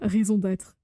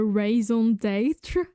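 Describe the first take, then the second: First: It has a natural, native French accent. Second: It has an exaggerated, bad French accent. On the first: "like the real French" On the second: "a false bad French accent"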